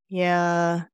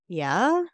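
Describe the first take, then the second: First: It is said with doubt. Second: It is said as a question. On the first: The speaker doubts what was said. "3 was skeptical" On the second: The speaker is asking for confirmation. "The second one was questioning"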